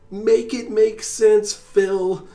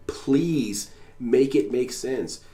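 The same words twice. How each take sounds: First: Much higher and louder, slow and strained; full scream. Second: Pleading scream. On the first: Imagined yell at Phil, high, loud and slow. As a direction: let it burst out as a yell. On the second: Imagined plea to the streamer, slow and pressing. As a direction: beg him to make sense, word by word. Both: Retold or imitated. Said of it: "scream at him".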